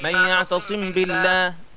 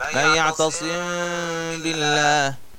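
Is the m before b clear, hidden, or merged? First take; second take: clear; hidden. First: The m sound is pronounced fully and clearly. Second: The m sound is partly hidden before the b.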